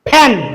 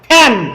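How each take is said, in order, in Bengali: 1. F উচ্চারণ হয় দুই ঠোঁট দিয়ে। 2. F উচ্চারণ হয় ঠোঁটের উপর দাঁত রেখে। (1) "কিন্তু আমরা বলছি ... দুই ঠোঁট এক জায়গায় লাগান যাবে না" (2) "কিন্তু এটা সঠিক উচ্চারণ কি হবে"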